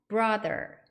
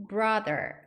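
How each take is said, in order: No difference in how they are said.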